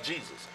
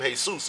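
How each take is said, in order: First: "Jesus" said JEE-zus; English pronunciation. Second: "Jesus" said hay-SOOS; Spanish pronunciation. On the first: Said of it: "you spell it just like Jesus". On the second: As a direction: say "Jesus" as in Spanish, H sound first, stress on soos. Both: Shown as a demonstration.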